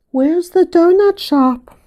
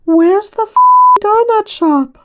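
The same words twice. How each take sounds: First: Put-on high, slow, innocent little-kid voice; slow toddler voice. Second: Put-on high, small toddler voice, with a cut-off near-swear; little three-year-old voice. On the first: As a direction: repeat it slowly and sweetly like a three-year-old. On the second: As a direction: pipe up like a tiny kid from the back seat. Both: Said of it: "in his little three-year-old voice".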